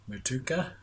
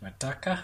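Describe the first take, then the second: First: Matuka with long "too", rising; Matuka, middle rhyming with two, questioning; alternative pronunciation. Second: Mataka with short open middle vowel; alternative pronunciation. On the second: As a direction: try Mataka as "muh-TUCK-a". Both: Shown as a demonstration. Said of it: "However you say it".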